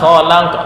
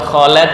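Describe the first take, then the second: First: The middle vowel sounds like an open a. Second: The middle vowel sounds like an e. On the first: The speaker calls it right. "la, la, bukan le" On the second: The speaker calls it wrong. "bukan kholek"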